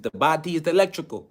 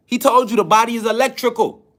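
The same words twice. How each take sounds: First: Imitated accent, each word set apart, more subdued; Dr. Sebi's accent. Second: Said in the usual way. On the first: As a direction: quote him lightly in his accent. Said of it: "You know, in his accent". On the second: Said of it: "in his accent".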